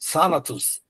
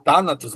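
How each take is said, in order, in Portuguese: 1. Começa com som de th sibilante. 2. Começa com som de t forte. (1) "mas na verdade é Thanatos, tá? Então seria mais sibilante" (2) "a gente poderia ler Thanatos"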